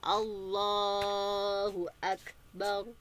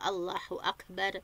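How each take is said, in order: First: The L sound in Allahu is thick and heavy. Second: The L sound in Allahu is thin and light. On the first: The speaker calls it right. "tapi Allah tebal ya" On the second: The speaker calls it wrong. "membaca huruf lam pada lafaz Allah dengan tipis atau tarkik"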